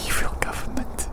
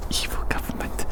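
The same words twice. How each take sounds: The two takes are said the same way.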